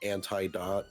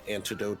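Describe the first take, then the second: First: The word ends with a short 'dot' sound. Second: The word is said with its usual ending. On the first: The speaker calls it wrong. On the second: The speaker calls it right.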